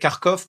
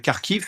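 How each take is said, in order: First: The name ends with the sound 'kov'. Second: The name ends with the sound 'kiv'. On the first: It follows the Russian pronunciation. "Avant, on disait Kharkov parce qu'on avait l'habitude de, de prendre la prononciation de, des Russes" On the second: It follows the Ukrainian pronunciation. "Mais en ukrainien, on dit bien Kharkiv"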